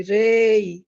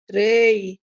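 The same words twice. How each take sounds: First: Sharp, louder roaring cry; woman's roar. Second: A long, slow, louder roar; thunderous roar. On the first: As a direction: roar it out like a furious crowd. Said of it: "ఓ ఆడదాని గొంతు గర్జించింది". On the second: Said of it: "భూమి గర్జించినట్లు". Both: A narrator's reading.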